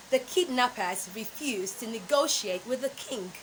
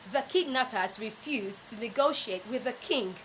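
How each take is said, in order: Both takes have the same delivery.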